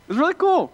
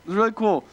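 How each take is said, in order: First: High, bright-eyed wonder at the big city; awed excitement. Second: Said in the usual way. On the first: Retold or imitated. Small-town guy wowed by Toronto, awed and gushing. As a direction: gush it out, much higher and louder.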